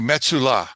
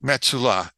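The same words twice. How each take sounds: First: The name is said with Hebrew pronunciation. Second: The same.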